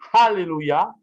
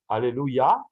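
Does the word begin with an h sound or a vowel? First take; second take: h sound; vowel. First: The word begins with a breathy h sound. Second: The word begins directly with a vowel. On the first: It means praising God. The speaker calls it right. "avec un H, comme louer Dieu" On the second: It can mean cursing God. The speaker calls it wrong. "Maudire Dieu"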